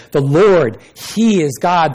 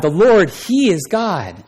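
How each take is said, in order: First: Higher and louder cry of awe; the crowd crying out after the fire; awed proclamation. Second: The Lord, he is God drawn out slowly and higher; slow it right down in reverence; awed, drawn-out confession of faith; slow solemn repeat. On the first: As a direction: shout it out in wonder. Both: Acted. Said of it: "fell on their faces and said".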